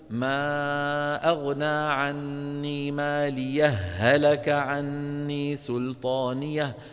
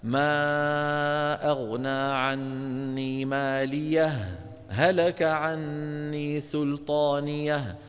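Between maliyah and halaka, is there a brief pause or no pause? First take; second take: no pause; brief pause. First: The two h sounds merge with no pause. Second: A brief pause separates the two h sounds. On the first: "لك أن تصل مع الإدغام" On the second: "أن تفصل الهاء الأولى عن الهاء الثانية فتسكت عليها هكذا"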